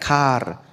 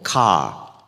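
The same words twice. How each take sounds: First: It is said with a clear final r sound. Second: It is said with no final r sound.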